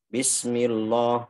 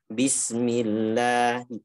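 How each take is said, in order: First: The lam is pronounced heavy and dark. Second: The lam is pronounced light and clear. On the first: The speaker calls it wrong. "banyak juga kadang baca bismillah seperti itu" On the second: The speaker calls it right. "seharusnya yang benar dibaca tipis"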